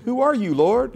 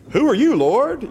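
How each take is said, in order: First: High, gentle TV-host greeting; sing-song kindly question, higher; Mister Rogers. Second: High, loud urgent cry; startled shout to the Lord. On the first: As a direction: greet him like a friendly neighbor. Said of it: "Like Mister Rogers greeting". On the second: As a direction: cry out, desperate and shaken. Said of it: "it was a little more urgent". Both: Shown as a demonstration.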